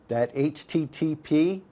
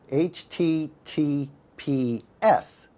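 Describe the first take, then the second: First: Said in the usual way. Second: "H T T P S" spelled out slowly, letter by letter, rising on the final S; slow letter-by-letter spelling, leaning on the final S; stress on the S. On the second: Shown as a demonstration. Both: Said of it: "indicates the presence of what we call an S S L certificate".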